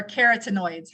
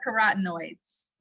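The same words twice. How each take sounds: First: Carotenoids said as KAIR-uh-tuh-noydz; alternative pronunciation. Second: Carotenoids said as kuh-RAHT-noydz; alternative pronunciation. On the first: Presenter offering another way to say it, carotenoids pronounced KAIR-uh-tuh-noydz. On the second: Presenter naming the product's ingredients, carotenoids pronounced kuh-RAHT-noydz. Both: Shown as a demonstration. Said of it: "however you wanna say it".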